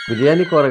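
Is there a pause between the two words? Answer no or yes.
no. The two words run together without a pause. It names a single dish. The speaker calls it wrong.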